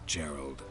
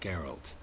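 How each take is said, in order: First: The name ends with a D sound. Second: The name ends with a T sound. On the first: The speaker calls it wrong. "Not Gerald" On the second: The speaker calls it right.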